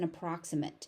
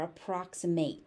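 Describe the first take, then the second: First: The final syllable has the adjective ending sound. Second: The final syllable has the verb ending sound. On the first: The word is used as an adjective. "if you're using it as an adjective" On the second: The word is used as a verb. "If you're using it as a verb"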